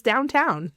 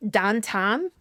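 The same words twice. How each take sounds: First: Said in the usual way. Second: Downtown said dahntahn, flat ah vowels in both halves; Pittsburgh dahntahn. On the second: Shown as a demonstration. Vlogger shows local pronunciation: Pittsburgh dahntahn. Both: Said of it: "means downtown".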